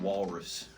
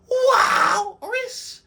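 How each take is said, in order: First: Said in the usual way. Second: Long, high hollered WALRUS; signature name call. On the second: Shown as a demonstration. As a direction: holler it out, first syllable soaring and stretched. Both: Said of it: "a way I said his name".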